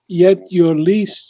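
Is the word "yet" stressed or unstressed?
unstressed. The word "yet" carries no special emphasis. The speaker calls it right.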